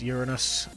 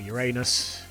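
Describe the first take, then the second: First: The stress is on the first syllable. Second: The stress is on the second syllable. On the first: This is the ordinary way to name the planet. "which is Uranus" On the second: This is the childish joke version of the name. "if you're twelve years old mentally"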